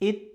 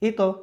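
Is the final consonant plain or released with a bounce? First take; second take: plain; bounce. First: The final consonant ends plainly without a bounce. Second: The final consonant is released with a bounce. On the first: The speaker calls it wrong. "এটাই তো হওয়ার কথা ছিল, কিন্তু এটা হবে না" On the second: The speaker calls it right. "একটু ধাক্কা হবে"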